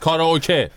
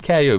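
First: It is said Japanese-style, ending in 'keh'. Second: It is said English-style, ending in 'kee'. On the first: This is the original Japanese form. The speaker calls it right. "ولی کاراوکه است. همینه که هست" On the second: This is how English speakers say it. The speaker calls it wrong. "بعد وارد انگلیسی که میشه لهجه های این شکلی هم به این کلمه ها میدن"

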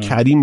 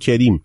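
First: The vowels are said the standard way. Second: The vowel is changed in a Tehrani accent.

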